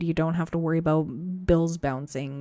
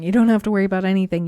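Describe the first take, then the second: First: Said in the usual way. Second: Louder and faster, punching DON'T; rising to a reassuring punchline; emphatic climax. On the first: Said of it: "repeated list building". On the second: Real, not acted. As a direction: drive the last line home with force. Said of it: "climax of the repeated list".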